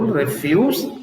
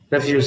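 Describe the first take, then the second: First: The stress is on the second syllable. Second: The stress is on the first syllable. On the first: "when you have the stress on the second syllable" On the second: "when you have stress on the first syllable, refuse means you disagree"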